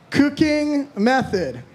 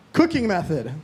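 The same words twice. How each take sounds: First: Drawn out, higher, baffled; slow puzzled read. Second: Said in the usual way. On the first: Real, not acted. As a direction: stretch it out slowly, baffled. Reading a puzzling prompt.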